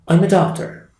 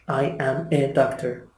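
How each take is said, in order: First: The first words are linked, fast and weak. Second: Each word is said fully and separately. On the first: The speaker calls it right. "very fast and very weak" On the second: The speaker calls it wrong. "The native speaker does not say"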